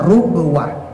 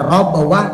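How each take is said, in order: First: The first syllable has a 'u' vowel. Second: The first syllable has an 'a' vowel. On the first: "dibaca dengan domah roknya" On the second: "membaca fathah roknya"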